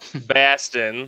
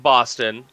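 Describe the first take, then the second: First: The word is said in a put-on local accent. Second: The word is said in an ordinary accent. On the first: The speaker calls it right. "Thank you" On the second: The speaker calls it wrong. "Say it right"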